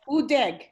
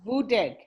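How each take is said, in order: First: The word begins with a bare oo vowel. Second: The word begins with a v consonant. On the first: "Sometimes we pronounce it silent, like oo" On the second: "Or sometimes it's pronounced vudeg"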